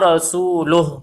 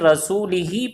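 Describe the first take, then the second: First: The vowel after rasul is u. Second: The vowel after rasul is i. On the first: The Messenger also disowns the polytheists. The speaker calls it right. "मरफू" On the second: God disowns the polytheists and the Messenger too. The speaker calls it wrong. "मजरूर"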